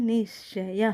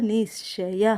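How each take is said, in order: Both takes have the same delivery.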